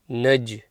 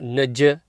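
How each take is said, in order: First: The final j ends with only a slight bounce. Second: The final j is followed by a full vowel. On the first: The speaker calls it right. "it's Naj, little bounce" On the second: The speaker calls it wrong. "not a full fatha, not Naj"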